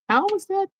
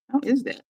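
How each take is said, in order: First: High-pitched how is that; high incredulous. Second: Milder disbelief. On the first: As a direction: ask it in high disbelief. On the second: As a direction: repeat it more quietly. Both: Retold or imitated. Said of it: "I'm just like".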